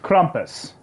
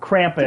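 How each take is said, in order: First: The first syllable does not sound like 'cramp'. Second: The first syllable sounds like the word 'cramp'. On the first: The speaker calls it right. "It's Krampus" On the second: The speaker calls it wrong. "Not Krampus. ... he doesn't have a cramp"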